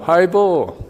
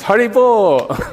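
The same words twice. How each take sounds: First: It is said as a friendly greeting. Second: It is said as joyful congratulations. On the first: Hello. "So Hari Bol can mean hello" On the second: Well done. "It can mean congratulations"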